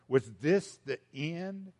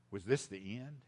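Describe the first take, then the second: First: "Was this the end?" slow, with more voice, to the folks; slower, louder question. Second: Soft, low "Was this the end?" asked to himself; hushed question. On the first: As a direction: ask it slowly and out loud to the crowd. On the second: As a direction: ask it quietly, almost to yourself. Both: Acted.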